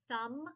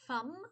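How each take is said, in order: First: The word begins with a th sound. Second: The word begins with an f sound. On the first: The speaker calls it right. "change it from thumb" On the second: The speaker calls it wrong. "they changed the T H to an F"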